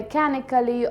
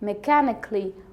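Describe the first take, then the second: First: The ending is said in full. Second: The ending is reduced. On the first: The speaker calls it wrong. "These pronunciations are wrong" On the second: The speaker calls it right. "You have to say"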